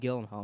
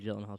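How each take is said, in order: First: The name is said with a harsh, throaty sound. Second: The name starts with a 'j' sound. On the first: The speaker calls it wrong. "That just sounds uncomfortable for the throat" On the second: The speaker calls it right. "Jill. ... I call him Gyllenhaal. Too"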